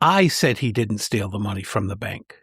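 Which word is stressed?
I. The stress falls on the word I. The speaker is making clear who made the claim. "The first clarifies what I claimed"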